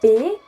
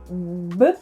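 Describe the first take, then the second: First: It is said as the full letter name. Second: It is said as a short bare consonant sound. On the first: It is the letter on its own. "this is how you pronounce it if it's only the letter" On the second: It is the letter inside a word. "if you use it in a word, it goes to B"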